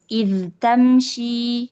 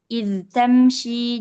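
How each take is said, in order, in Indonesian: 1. Bunyi dh dibaca jelas sebelum t. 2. Bunyi dh dibaca jelas sebelum t.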